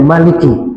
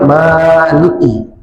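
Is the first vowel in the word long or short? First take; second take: short; long. First: The first vowel is kept short. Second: The first vowel is held long. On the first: "Bisa juga pendek Maliki" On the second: "Bisa dipanjangkan ma-nya Maliki"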